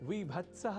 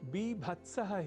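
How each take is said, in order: First: The word begins with a v sound. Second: The word begins with a b sound. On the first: The speaker calls it wrong. "विभत्सः आदि कहना या लिखना संस्कृत के संस्कृतत्व वाली प्रकृति पर चोट पहुंचाना" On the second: The speaker calls it right. "बीभत्सः ही संस्कृत में तो सर्वथा शुद्ध है"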